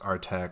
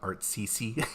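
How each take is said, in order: First: It is said as one word ending in 'tek'. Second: It is said as 'art' followed by 'see-see'. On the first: The speaker calls it right. "it's pronounced Artec" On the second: The speaker calls it wrong. "and not Artsisi"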